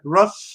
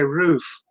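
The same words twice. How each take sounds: First: It is said in an American accent. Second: It is said in a Canadian accent. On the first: "Americans, right? They'll say uh" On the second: "in Canada, we'll say"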